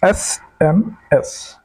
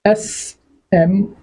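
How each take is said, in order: First: SMS drawn out with a falling end; slow teacher spelling, falling; slow spelled-out letters. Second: Drawn-out SMS letter by letter; slow teacher spelling; slow spelled-out letters. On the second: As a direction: stretch SMS slowly, each letter apart. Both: Shown as a demonstration. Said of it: "क्या बोल रहे हैं?".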